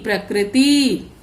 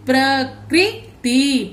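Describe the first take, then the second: First: Said in the usual way. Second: प्रकृति drawn out very slowly as प्र-कृ-ति; प्रकृति stretched syllable by syllable; slow syllable reading. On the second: Shown as a demonstration. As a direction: build प्रकृति up slowly for the class. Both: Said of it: "क्री, त को छोटी ई".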